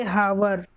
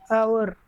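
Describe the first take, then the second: First: "hour" begun with an audible H, like "hower"; wrongly sounded H. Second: Said in the usual way. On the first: Shown as a demonstration. Teacher warning students off a mistake, "hour" with the H sounded. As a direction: pronounce the H in "hour" as in "house". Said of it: "We don't say hour". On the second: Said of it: "We say".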